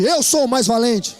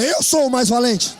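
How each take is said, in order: First: Slow, firm declaration of courage; slow, steady, confident boast; brave voice. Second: Slow, firm and bold; slow, bold declaration of strength; brave face. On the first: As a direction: say it like the bravest one in the room. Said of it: "Mas diz com voz de valente". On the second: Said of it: "Faz cara de valente agora". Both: Shown as a demonstration.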